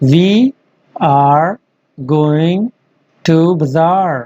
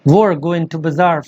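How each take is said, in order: First: Both words 'we are' are said fully. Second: 'We are' is run together fast into one syllable.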